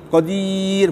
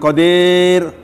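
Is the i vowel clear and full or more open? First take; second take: clear; more open. First: The i vowel is clear and fully raised. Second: The i vowel is lower and incomplete. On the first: The speaker calls it right. "kasroh tidak akan sempurna kalau uh, uh, tidak sampai ke marotnya ya" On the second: The speaker calls it wrong.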